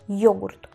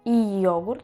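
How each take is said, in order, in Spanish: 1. El inicio es un solo sonido deslizado: yo. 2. El inicio se divide en sonidos separados i y o. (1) "digo yogurt" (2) "yo no digo y yogurt"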